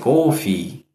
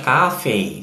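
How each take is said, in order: First: It is said with a New York accent. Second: It is said with a Californian accent.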